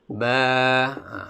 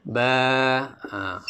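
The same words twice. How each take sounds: Both takes have the same delivery.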